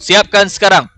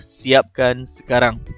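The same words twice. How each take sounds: First: It is said forcefully, with strong feeling. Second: It is said as a plain, neutral command. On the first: The order carries the speaker's feelings. "ada tanda seru dekat ujung iaitu dia ada unsur perasaan" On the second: It is a simple order to finish now. "contoh dia yang pertama"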